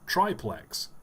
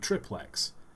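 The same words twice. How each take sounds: First: The first syllable sounds like 'try'. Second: The first syllable sounds like 'trip'. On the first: "But triangle, triathlon" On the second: "you say triple, so it would be triplex"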